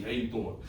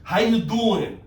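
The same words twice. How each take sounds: First: Low, soft Jersey aside; understated, low Jersey greeting; Jersey accent. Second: Silly Jersey greeting, played up; big playful Jersey accent. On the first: Acted. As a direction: toss it off quietly, Jersey style. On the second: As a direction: say it like a joking Jersey local. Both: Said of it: "I'm from Jersey".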